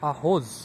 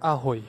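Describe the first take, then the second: First: The word ends with a hard 'j' sound. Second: The word ends with an 'ee' sound. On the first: The speaker calls it wrong. "আমাদের শুরুতেই মনে হবে" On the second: The speaker calls it right. "জেরে অনেক সময় ম্যাক্সিমাম টাইমে আয়ের মতো উচ্চারণ করে"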